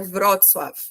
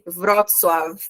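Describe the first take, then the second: First: The word ends with an F sound. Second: The word ends with a V sound. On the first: The speaker calls it right. "mas é Wrocław" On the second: The speaker calls it wrong. "Tem muita gente que escuta como se fosse um V"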